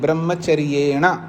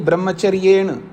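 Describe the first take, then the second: First: The final vowel is fully and clearly pronounced. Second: The final vowel is swallowed, Hindi style. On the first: The speaker calls it right. "पूरा आकार सुनाई देना चाहिए" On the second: The speaker calls it wrong. "नहीं"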